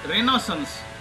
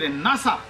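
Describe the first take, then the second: First: The word is pronounced in an English way. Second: The word is pronounced in a French way. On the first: The speaker calls it wrong. "he pronounced one word wrongly" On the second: The speaker calls it right. "this is French word, and it should be renasa"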